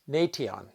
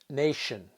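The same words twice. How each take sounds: First: The middle consonant is a plain t sound. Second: The middle consonant is a sh sound. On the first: The speaker calls it wrong. "we don't pronounce it as nation" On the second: The speaker calls it right. "the letter T is pronounced as sh"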